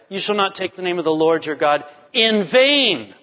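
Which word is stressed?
vain. The stress is on the word vain.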